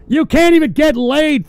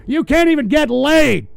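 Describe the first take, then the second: First: Much louder and higher repeat; louder insult. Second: Said in the usual way. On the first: Real, not acted. Host yelling insult at chatters. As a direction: shout the jab a second time.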